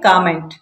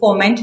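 First: The first vowel is an open 'aw' sound. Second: The first vowel is a short 'uh' sound. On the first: The speaker calls it right. "ये होता है कॉमेंट" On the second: The speaker calls it wrong. "ये कॉमेंट नहीं होता भाई"

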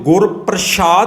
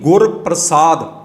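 First: The middle consonant is an sh sound. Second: The middle consonant is a plain s sound. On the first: The speaker calls it wrong. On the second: The speaker calls it right.

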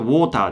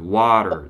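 First: It is said with Japanese katakana-style sounds. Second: It is said with American English sounds. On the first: "日本語だとwater" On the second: "英語はwater"

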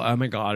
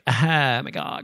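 First: The voice is smooth, without creak. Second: The voice is creaky, with vocal fry. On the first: "that's more Californian" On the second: "vocal fry is like"

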